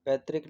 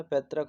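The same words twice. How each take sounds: First: पैतृक ending in -rik; PAIT-rik, an i sound in पैतृक; wrong pronunciation. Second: पैतृक ending in -rak; PAIT-rak, short a in the last syllable of पैतृक; correct pronunciation. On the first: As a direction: show the wrong पैतृक with -trik. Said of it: "पैतृक नहीं होता है". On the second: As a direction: model पैतृक with -trak, no i sound. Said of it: "पैतृक होता है". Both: Shown as a demonstration.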